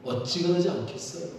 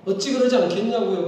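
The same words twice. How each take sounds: First: Said in the usual way. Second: 그러지를 높고 크게 강조하며 다그치듯; louder insistent repeat. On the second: Shown as a demonstration. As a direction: press the point harder, higher and louder. (더 크고 높게 강조해서 반복)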